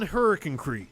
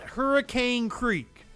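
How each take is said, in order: First: Hurricane is said in the local way. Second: Hurricane is said as it is spelled. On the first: This is how locals say the name. The speaker calls it right. "I grew up on Hurricane Creek" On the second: This follows the written spelling. The speaker calls it wrong. "That is not Hurricane Creek, though that is the way it is spelled"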